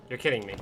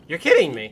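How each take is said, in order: First: Low, soft, deadened disbelief; quiet disbelief. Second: High, loud outburst; exasperated disbelief. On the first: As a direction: say it low, barely believing it. Disbelief at game, first take. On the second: Disbelief boils over, second take. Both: Real, not acted.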